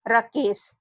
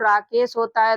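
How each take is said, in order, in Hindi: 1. पहला स्वर छोटा है, जैसे 'about' में 'a'। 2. पहला स्वर लंबा है, जैसे 'father' में 'a'। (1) "अगर यहाँ पर हम लोग ए से ओ की मात्रा न लगाते तो देखिए इस शब्द का उच्चारण क्या निकलता" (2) "राकेश होता है, तो यहाँ पर ए से ओ की मात्रा लगेगी"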